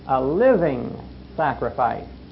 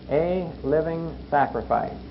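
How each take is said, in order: First: The stress is on the word living. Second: The stress is on the word sacrifice. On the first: The sacrifice must be alive and active. "But now there's another word behind it" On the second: The duty is to sacrifice. "So we emphasize the word sacrifice"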